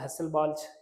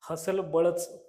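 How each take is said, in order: First: It is said in the standard foreign pronunciation. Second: It is said in a playful, Marathi-style pronunciation. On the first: This is the proper name, which is hard to say. "हे उच्चार करायला थोडंसं अवघड आहे" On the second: This is an affectionate nickname for the name. "मी त्याला प्रेमानं हसलबळच equation असं म्हणतो"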